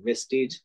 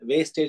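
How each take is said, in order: First: It sounds like 'ves-teej', ending in 'steej'. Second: It sounds like 'wastage', ending in 'stayj'. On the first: The speaker calls it right. "అది వెస్టీజ్ అండి" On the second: The speaker calls it wrong. "వేస్టేజ్ అంటుంటారు"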